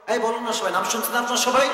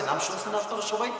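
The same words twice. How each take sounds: First: Higher, louder repeat of the question; insistent, raised-pitch question to everyone; prodding the audience. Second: Said in the usual way. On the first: Real, not acted. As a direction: press the crowd for an answer. Prods silent audience to answer.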